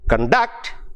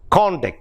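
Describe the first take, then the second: First: The stress is on the second syllable. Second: The stress is on the first syllable. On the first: It is a verb. "the second syllable stress, it becomes a verb" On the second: It is a noun or adjective. "which is a noun or an adjective"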